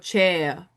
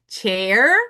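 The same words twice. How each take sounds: First: It is said with a British accent. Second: It is said with an American accent. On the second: "American English"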